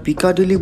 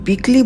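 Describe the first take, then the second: First: The name is said with four full syllables. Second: The name is squeezed into two short syllables. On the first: The speaker calls it wrong. "বানান দেখে আপনার পিকাডিলি বলতে ইচ্ছে করলেও" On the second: The speaker calls it right. "পিকলি বলেন তাহলে ওখানকার সাধারণ লোকে আরো বুঝবে ভালো"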